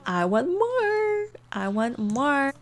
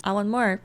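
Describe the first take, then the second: First: "I want more" slow and much higher on the first, stretched "more"; mock needy whine, slow; drawn-out greedy. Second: Said in the usual way. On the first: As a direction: drag out "more" like a greedy kid. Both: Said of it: "He's literally like".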